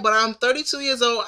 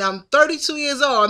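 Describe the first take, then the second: First: Said in the usual way. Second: Put-on thirty-two years old pressed up high and firm; insistent stress. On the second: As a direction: lean hard on thirty-two. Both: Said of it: "Listen, I'm a grown woman".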